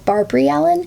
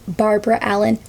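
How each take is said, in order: First: The first name ends with an 'ee' sound. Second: The first name ends with an 'uh' sound. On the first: This is how American folk singers say it. "the traditional American folk versions, pronounce it as Barbary Allen" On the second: This is the name's formal form. "her name is technically Barbara Allen"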